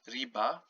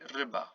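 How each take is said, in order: First: The first vowel is a tense 'ee' sound. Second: The first vowel is like i in fish. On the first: The speaker calls it wrong. "you don't have riba" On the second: The speaker calls it right. "pronounced like the I in the word fish"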